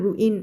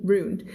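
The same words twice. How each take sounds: First: "ruin" in two separate syllables, roo-in; wrong reading of ruin. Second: "ruined" as one syllable, roond; correct reading of ruined. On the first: Teacher showing what to avoid, "ruin" as roo-in. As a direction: say "ruin" with the "in" fully sounded. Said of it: "ไม่อ่าน ruin". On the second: Teacher correcting the reading, "ruined" as roond. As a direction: say "ruined" run together with a final d. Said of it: "ไม่อ่าน ruin ruined". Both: Shown as a demonstration.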